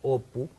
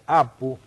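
First: The name begins with a rounded 'o' vowel. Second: The name begins with an open 'a' vowel.

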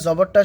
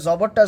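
No difference in how they are said.

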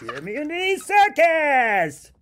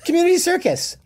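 First: It is said in a Fozzie Bear voice. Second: It is said in his normal voice.

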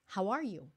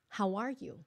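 First: The words are linked smoothly into one phrase. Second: The words are linked smoothly into one phrase.

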